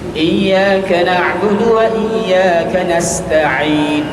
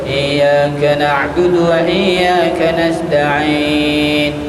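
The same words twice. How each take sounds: First: The s sound in nasta'in is clear. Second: The s sound in nasta'in is blurred. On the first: The speaker calls it right. "Nasta'in huruf sin" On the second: The speaker calls it wrong. "Jangan dibaca"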